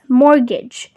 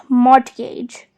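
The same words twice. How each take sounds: First: "mortgage" as MOR-gij, T silent. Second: "mortgage" as MORT-gayj, T pronounced; wrong, T sounded. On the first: Teacher models the right way, "mortgage" with silent T. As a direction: leave the T out of "mortgage". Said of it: "So it's called as". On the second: Teacher showing the mistake to avoid, "mortgage" with audible T. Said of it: "and not mortgage". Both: Shown as a demonstration.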